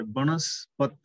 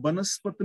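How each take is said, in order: First: ਬਨਸਪਤ with a retroflex ṇ in place of the n; ਬਨਸਪਤ said as baṇaspat. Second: ਬਨਸਪਤ with a plain dental n; ਬਨਸਪਤ with nanna, no retroflex nasal. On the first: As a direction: curl the tongue back for the n in ਬਨਸਪਤ. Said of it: "ਅਣਾਣਾ ਬੋਲਣਾ ਹੈ". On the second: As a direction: say ਬਨਸਪਤ with the tongue on the teeth for the n. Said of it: "ਇਹਨੂੰ ਬਨਸਪਤ ਨਹੀਂ ਪੜ੍ਹਨਾ, ਨੰਨਾ ਨਹੀਂ ਬੋਲਣਾ". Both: Shown as a demonstration.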